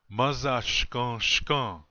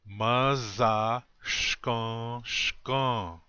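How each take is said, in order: First: The phrase is said at normal speed. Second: The phrase is said slowly.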